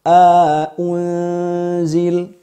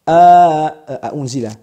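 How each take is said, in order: First: Both glottal stops are said with no vowel between. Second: A long vowel is inserted between the glottal stops. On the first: "Wajah kedua a unzil seperti bacaan jumhur" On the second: "Yang pertama al-idkhal"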